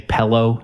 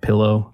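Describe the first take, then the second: First: The word has a regional Michigan pronunciation. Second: The word has the standard pronunciation. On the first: The speaker calls it wrong. "I used to say pillow instead of pillow. ... I got that from my dad. A lot of people say that, and that's on this Michigan list" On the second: The speaker calls it right. "I eventually figured out that it's pillow"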